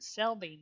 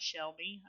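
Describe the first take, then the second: First: Selby said with a plain S sound, no SH. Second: Shelby said with an SH sound. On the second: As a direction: say Shelby with SH, as shell-bee. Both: Shown as a demonstration. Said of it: "is it Selby, not Shelby?".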